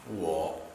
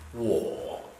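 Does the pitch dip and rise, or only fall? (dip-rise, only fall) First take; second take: only fall; dip-rise. First: The pitch only falls and does not rise. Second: The pitch falls low, then rises again. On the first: The word is said in fast connected speech. "você só vai até a primeira parte que desce, você não sobe" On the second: The word is said on its own. "Que ele vem, depois sobe um pouquinho"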